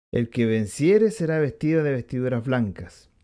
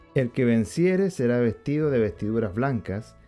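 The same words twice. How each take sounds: No difference in how they are said.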